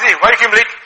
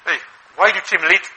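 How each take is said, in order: First: Louder, pushy demand from a mere staff member; a staffer scolding the boss, out of line; indignant staff. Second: Said in the usual way. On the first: Retold or imitated. Staff member wrongly challenging the boss, in a louder indignant voice. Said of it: "But if the staff says". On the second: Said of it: "He can shout you".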